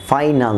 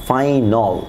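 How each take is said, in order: First: "ফাইনাল" ending in open "-nal"; wrong "ফাইনাল". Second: "ফাইনাল" as "fai-nol"; corrected "ফাইনাল". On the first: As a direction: say "ফাইনাল" as "fainal" with a. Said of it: "ফাইনাল না". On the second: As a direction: round the last vowel of "ফাইনাল" to "ol". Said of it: "সেটাকে উচ্চারণ হবে অল". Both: Shown as a demonstration.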